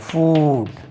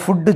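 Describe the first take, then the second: First: A long vowel, ending cleanly on the consonant. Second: A short vowel, with an extra vowel added after. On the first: The speaker calls it right. "ஃபூட் என்று உச்சரிக்க வேண்டும்" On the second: The speaker calls it wrong. "நம்ம ஃபுட்டு சொல்லக்கூடாது"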